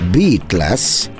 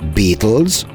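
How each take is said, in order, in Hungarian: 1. Úgy hangzik, mint a „beat” plusz „less”. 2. Úgy hangzik, mint az angol „beetles” szó. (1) "akkor pedig az, hogy ritmus nélkül" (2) "akkor bogarakat jelent"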